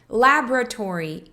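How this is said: It is said in an American accent.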